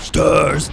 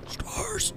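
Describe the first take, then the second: First: The word is said loudly and goofily. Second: The word is said very quietly. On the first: "old Nemesis sounds hilarious" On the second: "He said it like super quietly in the game"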